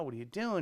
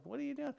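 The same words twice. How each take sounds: First: Said in the usual way. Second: Much higher and softer: "What are you doing?"; "What are you doing?" asked again in stunned disbelief. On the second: Retold or imitated. Asking the host "What are you doing?" again in disbelief, much higher.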